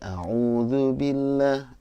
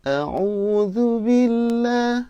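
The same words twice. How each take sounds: First: It is recited at a lower pitch. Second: It is recited at the highest pitch.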